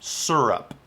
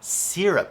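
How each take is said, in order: First: The first syllable has no y-like glide. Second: The first syllable has a y-like glide. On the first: This is the speaker's own usual pronunciation. "I say syrup. Drop the Y" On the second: This is how people in Boston say it. "in Boston, they totally say syrup"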